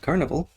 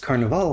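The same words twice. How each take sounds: First: The word is pronounced the English way. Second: The word is pronounced the Italian way. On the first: The speaker calls it wrong. "not Carnival" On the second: The speaker calls it right. "It's Carnival, because it takes place in Venice"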